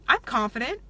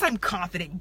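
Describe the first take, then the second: First: It is said hesitantly, without conviction. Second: It is said firmly, like a plain fact. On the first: Others will not believe the speaker is confident. The speaker calls it wrong. "do you think other people are going to take that as you're confident? No" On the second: The speaker truly believes it. The speaker calls it right. "Yes, I'm confident, damn it"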